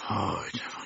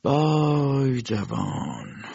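First: Barely voiced whispered repeat; whispered pitying echo. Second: Slow, stretched mournful sigh of a word; slow pitying lament; drawn-out lament. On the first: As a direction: breathe it out to yourself, almost silent. Doctor repeats it to himself. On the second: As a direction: let the vay hang, pitying. Doctor sighs over the youth. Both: A narrator's reading.

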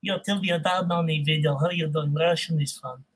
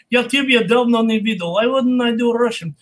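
First: Low, soft Russian-accented voice. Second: Strong Russian-accented delivery. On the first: Showing that Russian is fun, low Russian accent. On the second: Showing a student some Russian, Russian accent. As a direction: speak Russian, then English with a Russian accent. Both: Shown as a demonstration. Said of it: "Do some Russian accent".

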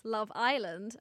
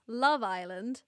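First: Drawn-out American Love Island, weight on Island; American accent. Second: Drawn-out British Love Island; British accent. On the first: Podcaster comparing accents for her co-host, American accent. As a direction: put on American, lean on the I. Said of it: "For Americans". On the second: Podcaster comparing accents for her co-host, British accent. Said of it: "so for British people". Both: Shown as a demonstration.

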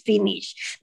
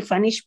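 First: "finish" with a short i in the first syllable; correct pronunciation. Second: "finish" with an a in the first syllable; mispronunciation. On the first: Mother correcting Santiago's English, "finish" pronounced FIH-nish. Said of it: "no le dice que es finish". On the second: Mother warning Santiago off the error, "finish" mispronounced FAH-nish. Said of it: "No vayas a decir finish". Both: Shown as a demonstration.

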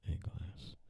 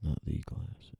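First: "a glass" whispered, stress on "a"; whispered correction. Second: "Not" punched, "the glass" softer; stress on not. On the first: Writer dictating, whispering the corrected article "a". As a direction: breathe the fix, leaning on "a". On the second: Writer dictating, rejecting "the glass" with stress on "Not". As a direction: correct yourself, hitting "Not". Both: Shown as a demonstration. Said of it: "Sometimes I do that".

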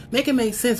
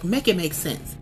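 First: Repeated higher, pleading for logic; exasperated second ask, pitched up. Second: Said in the usual way. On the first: Retold or imitated. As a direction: push the repeat up in disbelief. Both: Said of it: "I'm a person that's like".

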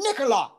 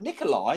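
First: NIKOLAI called out much higher; mock exasperated correction. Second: Said in the usual way. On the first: Heckler correcting comic, NIKOLAI high and insistent. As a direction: imitate a heckler insisting on his name.

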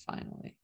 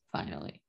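First: Whispered. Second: Much softer, low murmured finally; soft aside. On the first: Recapping the show to co-hosts, a whispered finally. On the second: Recapping the show to co-hosts, a relieved soft finally. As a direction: murmur finally to yourself, drawn down. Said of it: "finally have a kiss". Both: Real, not acted.

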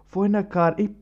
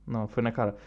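First: "Foi na cara" pushed higher and louder; "Foi na cara" stressed, rising; emphatic repeat. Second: Said in the usual way. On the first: Real, not acted. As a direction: land "na cara" harder. Repeats it for punch.

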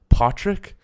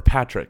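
First: "Patrick" with a broad "ah", like POT-rick; mispronounced name. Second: Said in the usual way. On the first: Retold or imitated. Manager asking the new hire's name, "Patrick" said PAH-trick. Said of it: "It's not Patrick". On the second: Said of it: "It's Patrick".

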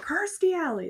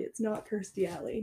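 First: Sudden high, loud blurt of "Kirstie Alley"; blurted the wrong name with full conviction; eager wrong guess. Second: Said in the usual way. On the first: Retold or imitated. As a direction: shout "Kirstie Alley" as if sure you've got it. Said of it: "I was like".

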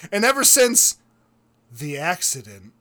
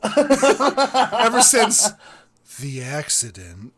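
First: A soap-opera hush before the accident; hammed-up tragic beat; melodramatic pause. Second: Cracking up mid-quote; laughing retelling. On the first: Melodramatic pause in fake sob story. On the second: Retold or imitated. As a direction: giggle through the tragic line. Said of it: "laughing my ass off".

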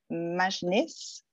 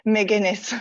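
First: MAJNIS said with a soft J sound for the G; French-accented mispronunciation. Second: McGuinness with a hard G, three syllables; corrected pronunciation. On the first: Host guessing at the guest's surname, French-accented mispronunciation. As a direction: say Majnis in two syllables, French-style. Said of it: "sorry, that's my French accent". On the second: Host repeating the guest's surname after being corrected, corrected pronunciation. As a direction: repeat McGuinness back, stress on the GUIN. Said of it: "it's McGuinness". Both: Real, not acted.

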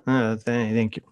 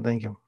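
First: Hesitant thank you, a touch louder; halting thanks, a bit more voice; a little louder. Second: A small, soft thank you under the breath; mumbled thanks, much softer; said very quietly. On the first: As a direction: stammer it out, slightly stronger. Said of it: "A little bit louder". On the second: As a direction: barely voice it, shy and quiet. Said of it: "he said it very quietly". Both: Retold or imitated.

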